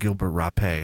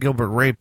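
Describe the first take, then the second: First: The last word has a French-style pronunciation. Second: The last word has a plain English pronunciation. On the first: "It'd be what's eating Gilbert Rapé"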